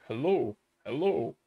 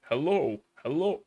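The two takes are said the same way.

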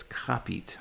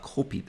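First: Копить said as "KAH-pit", with an open A sound; копить with the first vowel opened to "ah"; копить, first syllable like "cop"; corrected pronunciation. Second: Копить said as "KOH-pit", with a clear O sound; копить with a rounded O in the first syllable; копить, first vowel pronounced like "go"; wrong pronunciation. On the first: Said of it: "that's копить". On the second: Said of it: "that's not копить". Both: Shown as a demonstration.

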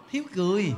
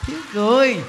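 First: Laughing answer. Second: Emphatic repeat. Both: Shown as a demonstration. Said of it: "Thiếu gì biết không".

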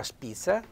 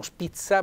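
First: "spizza" with the proper dialect Z; the corrected Z sound in "spizza". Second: "spizza" without the proper dialect Z; the rejected Z sound in "spizza"; wrong pronunciation. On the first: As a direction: softly model SPIZZA with its Z. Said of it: "la spizza con una Z". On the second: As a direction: show how SPIZZA should not sound, softly. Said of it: "non spizza, ma spizza". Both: Shown as a demonstration.

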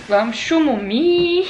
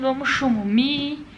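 First: Put-on slow, louder cooing baby talk. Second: Put-on baby talk. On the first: Talking to her mother like to a grandchild, slow cooing baby talk. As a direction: coax a little one to sleep. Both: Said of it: "Igual fala pro netinho".

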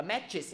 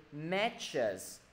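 First: "matches" with a tight "ih" in the ending; wrong ending vowel. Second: "Matches" with a relaxed "uh" in the ending; correct ending vowel. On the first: Teacher warning the class off a wrong "matches", mispronounced ending. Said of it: "Đừng gọi là matches". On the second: Teacher modelling the word for the class, careful "chus" ending. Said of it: "Đừng gọi là matches nha". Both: Shown as a demonstration.

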